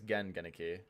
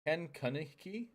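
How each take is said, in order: First: The first name starts with a G sound. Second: The first name starts with a K sound. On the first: The speaker calls it wrong. "I thought it was pronounced with like a G" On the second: The speaker calls it right. "It is Ken"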